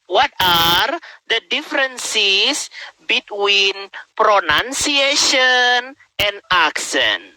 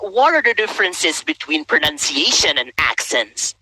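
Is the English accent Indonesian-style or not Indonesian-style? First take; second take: Indonesian-style; not Indonesian-style. First: It is spoken with a typical Indonesian English accent. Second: It is spoken without a typical Indonesian English accent.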